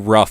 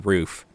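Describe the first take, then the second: First: The word is said to rhyme with tough. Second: The word is said to rhyme with hoof. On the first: This is how some other people say it. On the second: This is the speaker's usual way of saying it.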